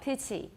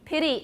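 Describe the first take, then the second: First: The middle consonant is a clear t. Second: The middle consonant is a d-like tap. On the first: "That's more British" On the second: "as an American. They're using a tap"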